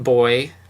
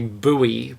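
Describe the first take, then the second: First: It is said as one syllable, like 'boy'. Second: It is said as two syllables, like 'boo-ee'.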